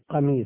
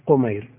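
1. الحرف الأول حركته 'a'، وليس على صيغة التصغير. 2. الحرف الأول حركته 'u'، وهو على صيغة التصغير. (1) "بفتح القاف" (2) "بالتصغير"

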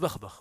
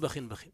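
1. كل كلمة تنتهي بدون صوت النون. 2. كل كلمة تنتهي بصوت نون زائد. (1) "إذا أرادوا التعريف" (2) "إذا أرادوا التنكير"

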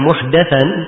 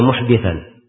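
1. Vokal sebelum 'th' adalah bunyi 'a'. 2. Vokal sebelum 'th' adalah bunyi 'i'. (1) "kalau di fathah muhdathan" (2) "Ini dibaca muhdithan"

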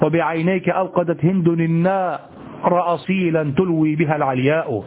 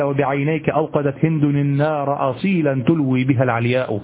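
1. يُنشد ضاربًا على إيقاع البحر. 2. يُنشد بنبرة الكلام الطبيعية. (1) "لم يقل ... الشعر لا يؤدى ببحره" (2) "وإنما قال"

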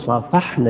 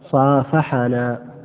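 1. الحرف الذي قبل -na ليس عليه أي حركة. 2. الحرف الذي قبل -na عليه فتحة قصيرة. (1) "نسكن الفعل فتكون هذه الفاعلين" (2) "لأن تكون مفعولين"

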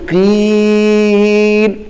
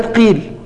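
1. يُمَدّ حرف المد أكثر من المقدار المعتاد. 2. يُمَدّ حرف المد بالمقدار المعتاد.

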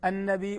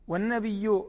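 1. الكلمة تنتهي بهمزة. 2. الكلمة تنتهي بياء مشددة. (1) "النبي بالهمزة" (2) "هكذا بالياء المشددة"

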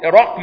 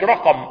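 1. لا يأتي بعد صوت q أي حرف علة. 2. يأتي بعد صوت q حرف علة. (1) "رقم بتسكين القاف" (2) "مش رقم"

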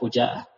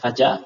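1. Vokal pertama adalah bunyi 'u'. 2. Vokal pertama adalah bunyi 'a'. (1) "Bidomil fa, dengan didomahkan fa" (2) "bukan fajaah"

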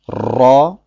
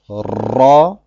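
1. Das r wird mit mehreren Zungenschlägen gerollt. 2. Das r wird mit mehreren Zungenschlägen gerollt.

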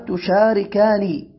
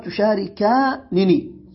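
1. تُنطق نون واحدة قصيرة فقط. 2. يُنطق نونان منفصلتان. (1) "ويجوز حذف إحدى النونين تخفيفا" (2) "من غير إدغام"

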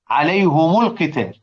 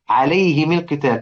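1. الهاء والميم كلاهما تأخذ حركة u. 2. الهاء والميم كلاهما تأخذ حركة i. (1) "يضموا الهاء" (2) "أبو عمرو يكسر الميم تبعًا للهاء"

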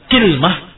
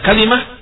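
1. Dua suku kata, dengan i di awal dan tidak ada vokal setelah l. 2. Tiga suku kata, dengan a lalu i sebagai vokalnya. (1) "dikasrahkan kafnya dengan disukunkan lamnya" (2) "dikasrahkan lamnya dan difathahkan kafnya"

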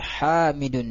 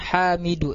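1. Kata ini berakhir dengan bunyi n. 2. Kata ini berakhir dengan vokal, tidak ada n di akhir. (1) "tapi Hamidun ya" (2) "jangan Hamidu"

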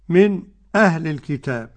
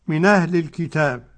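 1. تأتي سكتة قصيرة صامتة قبل الهمزة. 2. تُحذف الهمزة وتُوصل الكلمتان. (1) "والسكت بتاع خلف" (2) "النقل واضح بتاع ورش"

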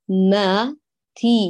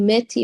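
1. الحركة بعد الميم فتحة 'a' واضحة ومفتوحة. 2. الحركة بعد الميم مائلة نحو 'i'. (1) "اعملي تمايز بين صوت الفتحة والكسرة المجاورة" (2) "لا تقولي ماتي ما، انتبهي كمان لفتحة الميم"

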